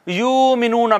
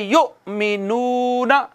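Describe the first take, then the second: First: Said in the usual way. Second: युमिनूना slow, with a sharp catch after यु; hamza with a jolt. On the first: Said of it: "इसको यूं नहीं पढ़ना". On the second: Shown as a demonstration. Teacher showing students the hamza catch, slow recitation. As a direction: break युमिनूना with a jolt on the hamza, then stretch the ू. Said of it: "यहाँ पे झटका देना है".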